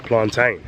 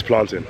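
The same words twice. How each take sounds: First: PLANTAIN with a long "tain" ending; plantain said plan-TAIN. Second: PLANTAIN with a short "tin" ending; plantain said plan-tin. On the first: Visitor quoting African viewers' way, plantain said plan-TAIN. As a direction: say "plantain" to rhyme with rain. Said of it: "African viewership will be calling it". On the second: Visitor insisting on his own way, plantain said plan-tin. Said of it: "will be calling it plantain". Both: Shown as a demonstration.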